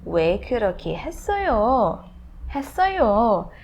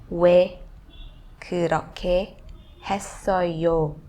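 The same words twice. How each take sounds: First: "했어요" lifted high, then swooping down; native-style expressive tune on "왜 그렇게 했어요?"; emotive Korean intonation. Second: Said in the usual way. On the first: Shown as a demonstration. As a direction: stretch the ending of "했어요" with feeling. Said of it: "You have to have that". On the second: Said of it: "Maybe you can pronounce".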